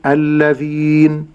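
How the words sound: The word is said in its pausal form. "أما في حال الوقف أقول الذين"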